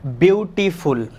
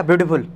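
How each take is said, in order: First: beautiful slowly split into three separate beats; stretched, segmented beautiful for a learner; broken into syllables. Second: beautiful run together quickly; quick, unsplit beautiful; all in one go. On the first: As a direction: say beautiful syllable by syllable, beau-ti-ful. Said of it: "beautiful तीन बार हो रहा है". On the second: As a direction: say beautiful fast as a single unbroken chunk. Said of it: "एक बार में हो रहा क्या". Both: Shown as a demonstration.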